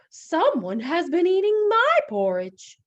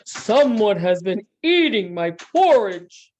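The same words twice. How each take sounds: First: It is said in a medium-pitched voice. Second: It is said in a big, deep voice. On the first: "in her middle-sized voice" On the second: "in his big, great big voice"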